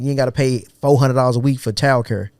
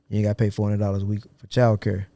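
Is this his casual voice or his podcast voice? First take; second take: casual; podcast. First: It is said in his ordinary casual voice. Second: It is said in a put-on podcast voice.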